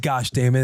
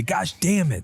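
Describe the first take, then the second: First: Said in the usual way. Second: Higher-pitched little mimic; lightly voiced copycat kid; mimicking child. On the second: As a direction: imitate a kid copying a parent's curse. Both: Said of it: "And then Rue just mimics me".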